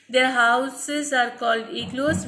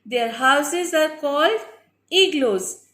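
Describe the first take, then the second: First: It is read quickly. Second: It is read slowly.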